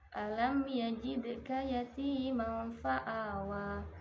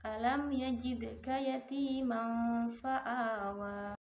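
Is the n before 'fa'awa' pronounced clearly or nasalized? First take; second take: clear; nasalized. First: The n before 'fa'awa' is pronounced clearly. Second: The n before 'fa'awa' is a hidden nasal. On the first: The speaker calls it wrong. "Contoh kesalahan lupa e, terhadap hukum tajwid" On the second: The speaker calls it right. "sehingga bacaan yang benar adalah"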